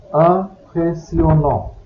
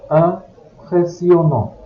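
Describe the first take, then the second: No difference in how they are said.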